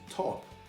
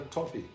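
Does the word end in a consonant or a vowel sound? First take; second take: consonant; vowel. First: It ends sharply on the p sound. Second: An extra ee vowel follows the final p. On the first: The speaker calls it right. "se pronuncia em inglês top" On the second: The speaker calls it wrong. "Se você colocar o i, vira top"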